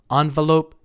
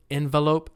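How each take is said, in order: First: "Envelope" opening with an "on" sound; first syllable of "Envelope" stressed as ON; ON-velope pronunciation. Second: "envelope" opening with an "en" sound; first syllable of "envelope" stressed as EN; EN-velope pronunciation. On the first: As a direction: say ON-vuh-lope. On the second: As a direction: say EN-vuh-lope. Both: Shown as a demonstration. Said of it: "Some Americans say envelope".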